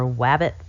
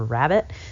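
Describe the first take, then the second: First: The word begins with a w sound. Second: The word begins with an r sound. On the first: A young child says it this way. The speaker calls it wrong. "or wabbit for" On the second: This is the adult form. The speaker calls it right. "for rabbit"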